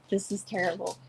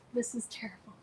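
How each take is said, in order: First: Said in the usual way. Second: Whisper. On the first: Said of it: "repeated as whisper". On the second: Real, not acted. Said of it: "repeated softly".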